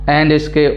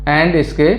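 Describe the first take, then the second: No difference in how they are said.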